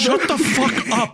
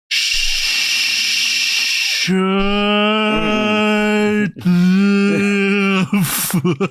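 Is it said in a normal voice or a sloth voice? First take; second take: normal; sloth voice. First: It is said in his normal voice. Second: It is said in a put-on sloth voice.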